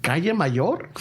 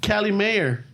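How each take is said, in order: First: Calle Mayor said KA-ye ma-YOR, Spanish, half laughing; Spanish Calle Mayor through a chuckle; Spanish pronunciation, laughing. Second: Cali Mayor said KAL-ee MAY-er, like English; mock gringo Cali Mayor; gringo pronunciation. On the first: Shown as a demonstration. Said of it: "I'm like". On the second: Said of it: "He's like".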